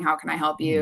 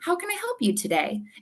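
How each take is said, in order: First: It sounds bored and checked out. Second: It sounds cheerful and warm.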